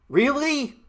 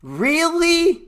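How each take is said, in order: First: Said in the usual way. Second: Really? pitched much higher, drawn out in disbelief; incredulous. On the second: Acted. Taunting people shocked by covid with a high drawn Really?. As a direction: stretch Really? high in mock astonishment.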